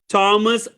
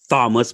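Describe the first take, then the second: First: The name begins with a plain 't' sound. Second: The name begins with a 'th' sound. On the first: The speaker calls it right. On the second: The speaker calls it wrong.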